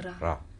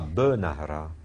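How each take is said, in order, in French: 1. Les deux premières consonnes se suivent sans voyelle. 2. Une voyelle brève, un schwa, suit la première consonne. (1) "c'est bnahra" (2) "C'est pas benahra"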